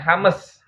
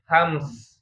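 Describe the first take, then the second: First: A vowel is inserted between the m and s. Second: The m directly joins the s without a vowel. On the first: The speaker calls it wrong. "Bacanya bukan hames ya" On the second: The speaker calls it right. "tapi hams ya"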